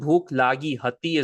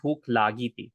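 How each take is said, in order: First: The last word is said in its full form. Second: The last word is said in a shortened form. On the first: This is the complete written form. "is the full sentence" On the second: This is how it is said in everyday speech. "we pronounce it when we talk"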